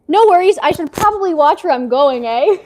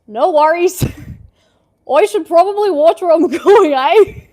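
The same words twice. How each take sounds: First: It is said in the speaker's normal accent. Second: It is said in an Australian accent.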